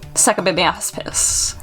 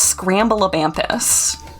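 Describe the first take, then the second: First: The name starts with 'saka' and ends 'baspis'. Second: The name starts with 'scram' and ends 'vampus'. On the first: The speaker calls it right. "I should give pronouncing it correctly a good try" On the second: The speaker calls it wrong. "I know I've been pronouncing it wrong"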